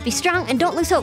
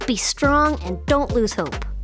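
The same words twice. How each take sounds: First: It is said very fast. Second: It is said at a slow, steady pace.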